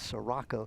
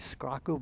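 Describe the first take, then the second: First: The name starts with 'si' before the 'r'. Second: The name starts with a 'scr' cluster. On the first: It is the family's own pronunciation. The speaker calls it right. "but it's Sirocco" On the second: It is read the way the spelling suggests. The speaker calls it wrong. "it looks like it should be Scrocco"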